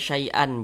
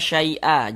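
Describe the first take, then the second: First: The word ends with an n sound. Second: The word ends on a vowel, without n. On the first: The speaker calls it wrong. "jangan dibaca syai'an, jangan" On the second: The speaker calls it right. "Ini kita baca syai'a"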